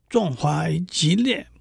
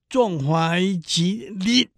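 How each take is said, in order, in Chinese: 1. 这句是用普通话读的，末尾音节是降调。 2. 这句是用粤语读的，末尾音节短促。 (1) "在现代汉语，壮怀激烈烈是四声" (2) "用粤语练是"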